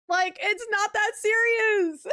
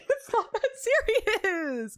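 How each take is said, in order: First: Said in the usual way. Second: Slow, laughing, stress on not; amused and drawn-out dismissal. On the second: Real, not acted. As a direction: laugh through "not that serious".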